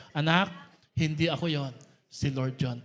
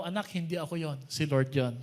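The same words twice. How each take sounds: First: Group recital. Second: Said in the usual way. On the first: Shown as a demonstration. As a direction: lead everyone in saying it together. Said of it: "Sabay-sabay tayo, ready, go". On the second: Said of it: "Sabi mo nga sa katabi mo".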